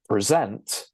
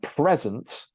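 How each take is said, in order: First: The stress is on the second syllable. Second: The stress is on the first syllable. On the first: It is the verb, meaning to give. "present is the verb" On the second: It is the noun, meaning a gift. "present is the noun"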